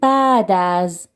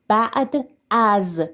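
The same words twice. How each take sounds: First: The phrase is pronounced loosely, sounds run together. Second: The phrase is pronounced carefully, each sound articulated. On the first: The speaker calls it right. "We say بعد از" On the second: The speaker calls it wrong. "we don't say بعد از"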